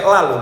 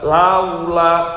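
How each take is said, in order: First: The vowel is flattened into a plain sound. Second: The vowel glides softly from a to u. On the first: The speaker calls it wrong. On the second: The speaker calls it right.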